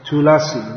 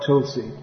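First: A vowel is sounded between the l and s. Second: No vowel is sounded between the l and s. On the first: This is the fuller southern pronunciation. The speaker calls it right. "In Telugu, I'm told, it's Tulasi" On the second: This is the shortened northern pronunciation. The speaker calls it wrong. "not Tulsi"

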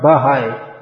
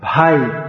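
First: It is said as two syllables, ba-hai. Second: It is said as one syllable, bhai. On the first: The speaker calls it wrong. "you can't separate the bha and the ha" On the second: The speaker calls it right. "Bha is a sound. It's a complete sound in itself"

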